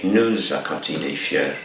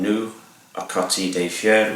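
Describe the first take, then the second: First: A z sound links the pronoun to the vowel. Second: The pronoun runs into the vowel with no z. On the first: The speaker calls it right. "we say" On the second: The speaker calls it wrong. "rather than"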